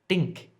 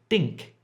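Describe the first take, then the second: First: The word starts with a hard d sound. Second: The word starts with a hard d sound.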